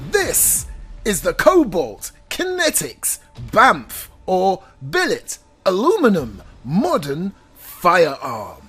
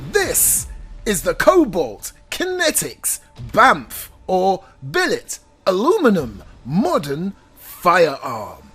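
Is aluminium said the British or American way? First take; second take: American; American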